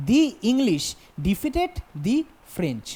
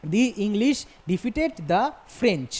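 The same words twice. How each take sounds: First: Slow dictation, both "The" and "the" as dee. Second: Slow dictation, "The English" with dee, "the French" with dah; THE as dah before French. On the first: Teacher reading the written example to students, "the" before French said dee. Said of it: "উচ্চারণ করব দি হিসাবে". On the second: Teacher re-reading the example to students, "the" before French said dah. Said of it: "দা হিসাবে উচ্চারণ করব". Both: Shown as a demonstration.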